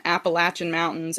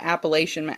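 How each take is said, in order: First: "Appalachian" with short A and CH, app-uh-LATCH-un. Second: "Appalachian" with long A and SH, app-uh-LAY-shun. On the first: Host shows both ways to say it, "Appalachian" as app-uh-LATCH-un. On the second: Host shows both ways to say it, "Appalachian" as app-uh-LAY-shun. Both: Shown as a demonstration. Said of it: "You can say both".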